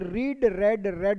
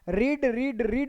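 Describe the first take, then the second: First: The last two words are said with a short 'e' vowel. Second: All three words are said with a long 'ee' vowel. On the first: The speaker calls it right. "रीड रेड रेड होता है" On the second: The speaker calls it wrong. "रीड रीड रीड नहीं होता बच्चे"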